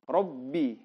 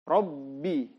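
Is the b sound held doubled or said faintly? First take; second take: doubled; doubled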